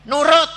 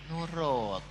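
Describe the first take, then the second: First: High, loud single word; forceful, high burst; shouted command. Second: Softer, drawn-out word; lowered, falling voice; gentle instruction. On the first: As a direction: snap it out loudly. Second take, shouted. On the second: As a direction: ease off and say it softly. First take, lowered. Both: Acted.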